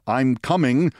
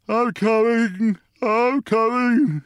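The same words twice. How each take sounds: First: Said in the usual way. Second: Slow, high drawn-out wail; groggy father calling out, high and drawn out; sleepy wail. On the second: A narrator's reading. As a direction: wail it slowly, half asleep. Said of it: "he wailed in a slow, sleepy voice".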